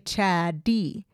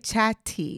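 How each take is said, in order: First: The middle consonant is a soft D-like sound. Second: The middle consonant is a crisp T sound. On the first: The speaker calls it right. "we say chaddy. ... We make it kind of a D sound" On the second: The speaker calls it wrong. "we don't say chatty"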